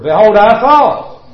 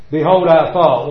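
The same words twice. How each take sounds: First: Louder, slow indignant Naaman quote; quoting Naaman indignantly. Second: Said in the usual way. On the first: Retold or imitated. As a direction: proclaim Naaman's proud complaint, slowly. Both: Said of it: "with Naaman, the leper".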